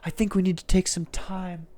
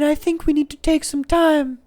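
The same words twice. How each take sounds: First: It is said in the speaker's ordinary voice. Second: It is said in a put-on British accent.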